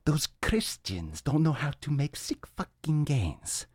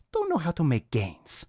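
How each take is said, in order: First: Slow, slightly higher Viking warrior growl, a little softer; mock Viking bravado. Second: Higher, hammed-up Viking warrior; lightly voiced Viking mocking Christians. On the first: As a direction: boast like a warrior from the show Vikings. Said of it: "like, the show Vikings right now". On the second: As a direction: finish the boast in a mock Viking voice. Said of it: "All right, enough of that".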